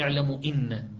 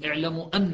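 First: The second word begins with an 'i' vowel. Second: The second word begins with an 'a' vowel. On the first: The speaker calls it wrong. "بعد ما يصير" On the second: The speaker calls it right. "تأتي بعدها أن مفتوحة الهمزة"

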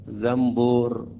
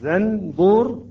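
First: An m sound comes before the b. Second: A clear n sound comes before the b.

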